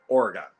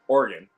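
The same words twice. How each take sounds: First: It is said with a Midwestern pronunciation. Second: It is said with the local Oregon pronunciation. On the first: This is how the name is said in Ohio. "that's how we we say it" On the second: This is how people in the state say it. "that's how they say it up in Oregon"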